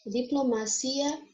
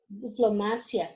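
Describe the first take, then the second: First: Diplomacia slowly, stressed on CI. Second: Diplomacia with the stress on MA. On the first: Teacher gives the Portuguese take, stress on CI in Diplomacia. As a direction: say Diplomacia as diplomaCIa, rising. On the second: Teacher gives the Spanish take, stress on MA in diplomacia. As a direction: say diplomacia as diploMAcia, falling. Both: Shown as a demonstration. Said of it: "porque vai mudar a sílaba tônica".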